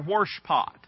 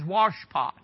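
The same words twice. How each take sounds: First: It is said in the local regional accent. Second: It is said in a standard accent.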